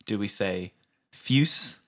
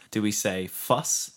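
First: Fwus said as fuse, with a long yoo sound. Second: Fwus said as fuss, rhyming with bus. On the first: Pitching how to say the acronym, as fuse. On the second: Pitching how to say the acronym, as fuss. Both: Shown as a demonstration. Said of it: "here's where we canonize how you say our acronym".

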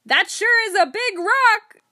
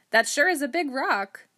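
First: Chest-out bellow, very high and loud; hammed-up shout. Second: Said in the usual way. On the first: Joker shouts back at the foreman who corrected him, mock-bold shout. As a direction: shout it slowly and far bigger, puffed up for comedy. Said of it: "stuck out my chest and shouted". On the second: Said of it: "first take, before the shouted one".

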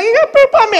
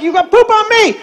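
First: Put-on high-pitched little-girl protest; high mock-tantrum kid voice; granddaughter's accusation. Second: High-pitched mock-indignant grandpa; exasperated comic comeback; grandpa's retort. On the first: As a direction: imitate a fussy child blaming Grandpa. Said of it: "she's like". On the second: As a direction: throw a child's accusation back, pitched up. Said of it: "I'm like".

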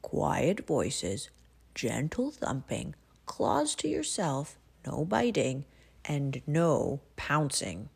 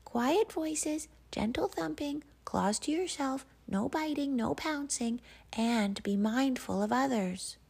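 First: Cozy's house rules. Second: Very high, squeaky sing-song list; animal chorus reciting rules. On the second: The animals chanting house rules at huskies, very high. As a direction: recite like a crowd of tiny critters. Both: Acted.

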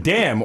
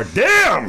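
First: An appreciative "Damn", slightly up; impressed damn. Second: "Damn." pitched higher and louder, recoiling; grossed-out damn. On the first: Checking out a hot girl, impressed "Damn". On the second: Seeing a girl who looks like your brother, put-off "Damn.". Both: Retold or imitated. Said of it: "It's just like".

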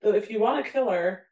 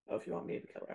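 First: Said in the usual way. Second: Much softer re-read; quietly trying the line again. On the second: Shown as a demonstration. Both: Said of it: "I don't know if I said that right".

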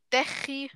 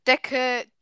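First: 'Decke' with throaty 'ch' for ck; 'Decke' said as Swiss 'Dechi'; Swiss German K. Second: Said in the usual way. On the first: Shown as a demonstration. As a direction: scrape the middle of 'Decke' as 'Dechi'. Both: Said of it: "das K wird K ausgesprochen".

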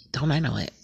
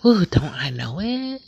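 First: Said in the usual way. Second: High, loud, drawn-out "Ooh, don't I know it?"; emphatic knowing exclamation. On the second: Real, not acted. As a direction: sing out the ooh like you've lived it.

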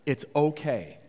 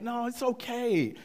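First: Calm, sincere reassurance; mean it, with no edge; genuine. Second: High, falsely reassuring dad; passive-aggressive. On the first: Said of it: "it wasn't passive aggressive this time". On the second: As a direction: pretend it's fine when it isn't. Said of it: "passive aggressively, I said". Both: Retold or imitated.

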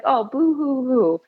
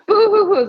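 First: Mock sobbing boo hoo; fake crying. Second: Mock sob, louder and higher; hammed-up wailing boo hoo hoo; fake crying. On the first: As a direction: pretend whimper, hammed up. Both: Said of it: "It's like".

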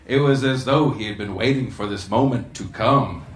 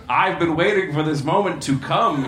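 First: Said in the usual way. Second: Words pushed out in a mock belch. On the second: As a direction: burp the line out, hammed-up. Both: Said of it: "he belched".

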